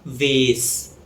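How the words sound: It is said in an American accent. "In American English, it's pronounced as vase or vase"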